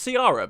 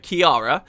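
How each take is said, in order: First: The name begins with a soft S-like sound. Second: The name begins with a hard K sound. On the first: The speaker calls it wrong. "I've always pronounced it as Ciara, because that's how I read it" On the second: The speaker calls it right. "But apparently it's Kiara"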